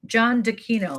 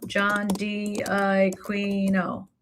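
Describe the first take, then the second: First: Said in the usual way. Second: Very slow, stretched-out syllables; John D'Aquino at dictation pace; drawn-out while typing. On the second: Real, not acted. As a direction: sound the name out slowly as you type it. Sounding out name while typing.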